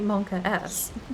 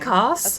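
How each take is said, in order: First: The S is spoken as a separate letter. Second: The S is run together into one word. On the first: "To me, it's always been Monka S. Yeah, literally Monka S" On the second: "said it fluently in one go ... it came off as Monkas"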